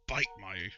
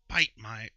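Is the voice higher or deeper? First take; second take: deeper; higher. First: It is said in a very deep voice. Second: It is said in a higher voice.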